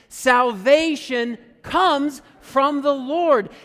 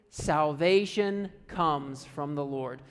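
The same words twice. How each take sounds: First: It is said loudly and excitedly, like an exclamation. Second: It is said plainly, without much energy.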